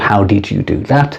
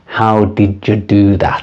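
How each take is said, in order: First: 'Did' and 'you' are said as separate words. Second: 'Did you' is blended together into 'didja'. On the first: "Perfect pronunciation, amazing, excellent, very good" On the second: "native speaker pronunciation would be"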